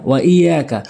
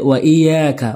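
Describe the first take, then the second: The two takes are said the same way.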